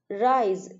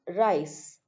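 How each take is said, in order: First: The word ends with a buzzing z sound. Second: The word ends with a hissing s sound.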